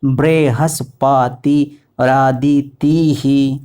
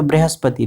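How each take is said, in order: First: "बृहस्पति रादितिः" slow, every syllable drawn out; Sanskrit pronunciation. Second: "बृहस्पति" quick, with short syllables as in Hindi; Hindi pronunciation. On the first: Teacher showing the Sanskrit reading, slow chanted pronunciation. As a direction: stretch "बृहस्पति रादितिः" syllable by syllable, voicing the final hi. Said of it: "लेकिन संस्कृत में". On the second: Teacher showing the Hindi reading, quick everyday pronunciation. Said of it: "Hindi में पढ़ेंगे तो". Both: Shown as a demonstration.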